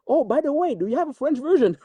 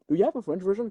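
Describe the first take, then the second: First: High, bright eager quoting; eager question. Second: Said in the usual way. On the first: Retold or imitated. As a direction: ask it like an excited studio exec. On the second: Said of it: "asking me".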